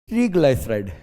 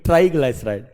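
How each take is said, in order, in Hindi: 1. पहला शब्दांश 'tree' जैसा सुनाई देता है। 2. पहला शब्दांश 'try' जैसा सुनाई देता है। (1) "ट्री नो ट्री" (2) "ट्राई मतलब थ्री, ट्री नहीं ट्राई"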